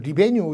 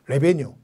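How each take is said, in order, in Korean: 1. 첫 음절의 모음은 'ee'예요. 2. 첫 음절의 모음은 'eh'예요. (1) "영국식 번역은도 리베뉴 이렇게 얘기도 하기도 하는데" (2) "한번 틀었더니 레베뉴 이렇게 얘기를 하더라고요"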